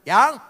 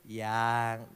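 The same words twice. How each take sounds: First: It is said in a cold, unloving tone. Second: It is said in a warm, loving tone.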